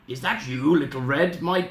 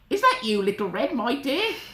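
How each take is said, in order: First: It is said in a voice not Granny's. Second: It is said in Granny's voice.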